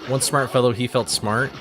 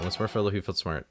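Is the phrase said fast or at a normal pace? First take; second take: normal; fast. First: The phrase is said at a normal pace. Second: The phrase is said very fast.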